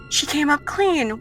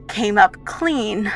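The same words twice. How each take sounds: First: High-pitched, falling "She came up clean"; suspicious musing. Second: Slow, deliberate "came up clean"; slow, pointed. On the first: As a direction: repeat "She came up clean" higher, doubting it. Villain repeats result with suspicion. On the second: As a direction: draw out "came up clean" at usual pitch. Villain dwells on test result. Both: Acted.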